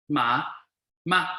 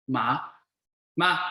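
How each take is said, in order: The two takes are said the same way.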